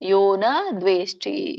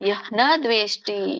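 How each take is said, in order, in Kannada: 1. ಮೊದಲ ಪದ 'o' ಸ್ವರದಲ್ಲಿ ಮುಗಿಯುತ್ತೆ. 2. ಮೊದಲ ಪದ ಉಸಿರು ಬೆರೆತ 'ah' ಶಬ್ದದಲ್ಲಿ ಮುಗಿಯುತ್ತೆ.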